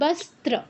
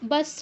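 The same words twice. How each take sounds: First: The middle consonant cluster is said clearly. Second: The middle consonant cluster is said weakly. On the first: The speaker calls it right. "কিন্তু বস্ত্র" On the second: The speaker calls it wrong. "এই এই ভুলটা করা যাবে না, বস্ত্র নয়"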